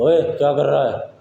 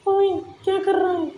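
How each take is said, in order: First: The voice is deep and heavy. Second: The voice is thin and high-pitched. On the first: "भारी आवाज बोल के बता रहे हैं" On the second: "और पतली आवाज"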